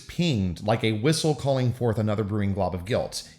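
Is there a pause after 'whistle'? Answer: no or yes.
no. There is no pause after 'whistle'. The guilt could arise but does not. "if you remove the comma"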